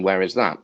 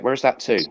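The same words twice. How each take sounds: First: Said in the usual way. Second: "Where is that to?" quoted higher as the local Devon phrase; Devon phrasing. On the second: Retold or imitated. Comic teasing Devon audiences about "Where is that to?" in local phrasing. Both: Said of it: "I think you mean".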